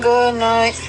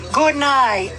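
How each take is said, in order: First: The words are mumbled and run together. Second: Each sound is articulated clearly and distinctly. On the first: The speaker calls it wrong. "Instead of saying" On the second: The speaker calls it right. "So enunciate"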